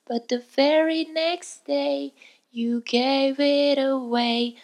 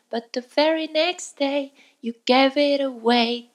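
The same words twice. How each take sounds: First: The phrase is said at a medium speed. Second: The phrase is said quickly. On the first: "徐々に早くしていって" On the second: "徐々に早くしていって"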